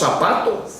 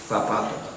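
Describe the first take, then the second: First: The z is said with an s sound. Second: The z is said with a th sound. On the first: The speaker calls it wrong. "Y nosotros decimos" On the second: The speaker calls it right. "¿Cómo se debería decir?"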